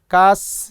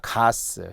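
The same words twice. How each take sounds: First: The first consonant is tense. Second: The first consonant is plain. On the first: The speaker calls it wrong. "가스 레인지가 아니라" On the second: The speaker calls it right. "아니라 가스"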